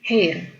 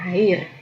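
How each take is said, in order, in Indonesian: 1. Vokalnya terdengar lebih dekat ke E. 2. Vokalnya terdengar seperti A terbuka. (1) "tapi A-nya lebih ke E gitu ya. Jadi hair" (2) "dibacanya bukan hair"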